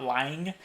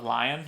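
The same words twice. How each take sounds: First: Said in the usual way. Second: "lying" with the final g dropped, like "lion". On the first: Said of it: "anytime I hear someone say, not lying". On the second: Shown as a demonstration. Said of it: "not lying, but lying".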